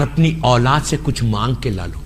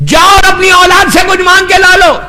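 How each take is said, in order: First: Said much softer and lower, almost to himself; hushed command. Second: Proclaimed command. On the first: Preacher quoting God sending souls to their children, hushed and solemn. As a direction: let it fall quietly, a solemn hush. God's words to the dead, first said. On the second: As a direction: throw it out to the whole hall. Same words repeated, now proclaimed. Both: Acted.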